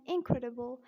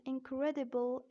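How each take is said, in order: First: American "incredible" with a tapped D; American-accent demo of incredible. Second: British "Incredible" with a clear D; British-accent demo of Incredible. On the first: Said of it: "in American accent". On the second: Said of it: "in British accent". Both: Shown as a demonstration.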